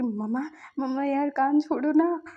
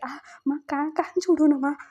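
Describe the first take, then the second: First: Louder whine on the last words; pained plea. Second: Ow, let go of my ear, pleading louder; pained plea. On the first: Son pleading with mom to stop pulling, pained whine. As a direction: beg her to let go of the ear. Mother twisting his ear. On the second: Son begging mother to release his ear, pained whine. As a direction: yelp as the ear gets twisted. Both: Retold or imitated.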